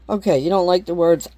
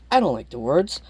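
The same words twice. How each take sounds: First: "you" leaned on, putting the point on the other person; stress on you. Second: "I" leaned on, rising, answering the first line; stress on I. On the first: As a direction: lean on "you" to point at them. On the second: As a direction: hit the "I" to turn it back on yourself. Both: Shown as a demonstration.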